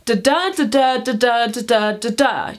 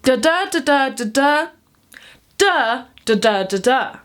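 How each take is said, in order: First: "da da" in an even, alternating beat with no break; steady unbroken rhythm. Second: "da da da", pause, lone "Duh", then the beat resumes; rhythm broken by pauses. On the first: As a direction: run the "da da" syllables on without a pause. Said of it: "don't have to be stuck in the". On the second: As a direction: break the beat with a held silence before "Duh". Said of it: "a break or a pause in the middle". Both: Shown as a demonstration.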